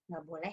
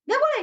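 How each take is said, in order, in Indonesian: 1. Diucapkan dengan nada rendah dan tenang. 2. Diucapkan dengan nada tinggi dan tegang. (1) "Akhirnya saya pakai nada yang rendah" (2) "Ketika saya menggunakan nada tinggi"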